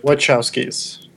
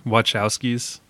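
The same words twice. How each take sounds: First: Slow, careful "Wachowskis" with "wuh-CHOW-skis"; "Wachowskis" said slowly, CH as in church; correct pronunciation. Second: "Wachowskis" with a CH sound, wah-CHOW-skis, rising; tentative "Wachowskis" with CH, rising at the end; repeating the pronunciation. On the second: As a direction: echo back "Wachowskis" with a question tune. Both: Shown as a demonstration.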